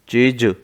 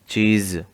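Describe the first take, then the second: First: The final ज is said as its plain sound. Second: The final ज is said with the nukta-changed sound.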